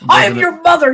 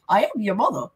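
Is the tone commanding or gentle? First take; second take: commanding; gentle. First: It is said firmly, as a stern command. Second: It is said softly and lightly, British-style. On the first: She is asserting authority and demanding obedience. "She wasn't making it a statement like" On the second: She is simply, warmly revealing who she is. "She's like"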